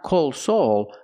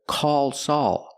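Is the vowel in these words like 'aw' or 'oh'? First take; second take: oh; aw. First: The vowels are a long O sound. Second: The vowels are an open aw sound. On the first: The speaker calls it wrong. "I'm using the long O sound" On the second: The speaker calls it right. "I need the sound aw"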